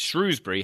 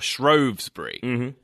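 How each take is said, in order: First: The first syllable sounds like 'shrew'. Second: The first syllable sounds like 'shrow'.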